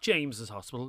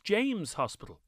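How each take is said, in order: First: The name ends with an extra "-iz" syllable. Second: The name ends without an extra syllable. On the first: The speaker calls it wrong. "It's not James's Hospital" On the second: The speaker calls it right. "It's James Hospital"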